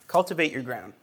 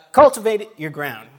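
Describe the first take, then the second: First: Said in the usual way. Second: Much louder, the word cultivate punched; emphatic title. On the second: Shown as a demonstration. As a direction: proclaim the theme like a banner.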